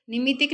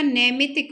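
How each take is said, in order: First: निमितिक opening on "ni"; short i in the first syllable of निमितिक; mispronounced NIMITIK. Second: नैमितिक opening on "nai"; correct NAIMITIK. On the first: Teacher showing the wrong form, निमितिक starting with "ni". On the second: Teacher correcting the word, नैमितिक starting with "nai". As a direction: open the first vowel of नैमितिक to ai. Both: Shown as a demonstration. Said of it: "निमितिक नहीं होता".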